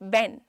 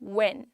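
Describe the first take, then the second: First: It begins with upper teeth touching the lip. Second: It begins with rounded lips, no teeth contact. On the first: The speaker calls it wrong. "एक होता है बेन" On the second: The speaker calls it right. "ये pronunciation है, it's व्हेन"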